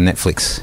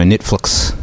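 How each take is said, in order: First: Said in the usual way. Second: "Netflix" said as "Nitflux"; New Zealand vowels. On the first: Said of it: "instead of Netflix". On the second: Shown as a demonstration. Showing a listener the New Zealand accent, New Zealand vowels. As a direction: say "Netflix" with e squeezed to i and i turned to u. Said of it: "E and the I sort of goes into a new s-, to, into a U".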